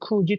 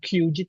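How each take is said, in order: First: The first syllable sounds like plain ku. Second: The first syllable sounds like kyu. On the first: The speaker calls it right. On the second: The speaker calls it wrong.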